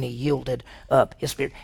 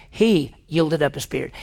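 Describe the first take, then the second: First: Said in the usual way. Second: "He" set apart and emphasized; stress on He. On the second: Shown as a demonstration. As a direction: lean on "He", then the rest evenly. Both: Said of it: "It didn't say he just died".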